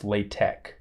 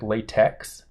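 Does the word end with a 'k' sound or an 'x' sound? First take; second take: k; x. First: The word ends with a 'k' sound. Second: The word ends with an 'x' sound. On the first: The speaker calls it right. "the X is actually pronounced as a K" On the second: The speaker calls it wrong. "it looks like latex"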